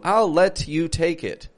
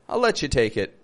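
First: Let and you are said separately and clearly. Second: Let and you blend together into letcha. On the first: The speaker calls it wrong. "That's how a robot would say that, really. ... it's too clear, it's too perfect" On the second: The speaker calls it right. "We want to mush those together. Letcha"

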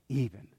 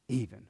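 No difference in how they are said.

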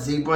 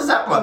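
First: It is said in an American accent. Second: It is said in a South African accent. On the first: "we call it zebra" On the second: "y'all call it zebra"

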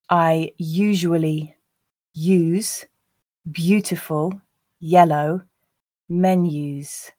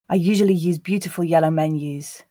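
First: The sentence is said at a slow pace. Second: The sentence is said at a natural pace. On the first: "I'll read the first time slowly" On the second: "the second two times at a more natural pace"

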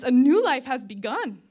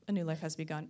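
First: It is said in an excited, lively tone. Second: It is said in a flat, unexcited tone.

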